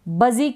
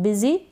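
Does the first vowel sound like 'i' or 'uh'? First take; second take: uh; i. First: The first vowel sounds like 'uh'. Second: The first vowel sounds like a short 'i'. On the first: The speaker calls it wrong. "इसको हम बजी क्यों नहीं पढ़ रहे हैं" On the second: The speaker calls it right. "यू को छोटी ई, क्या शॉर्ट आई यानी कि छोटी ई के रूप में प्रोनाउंस कर रहे हैं"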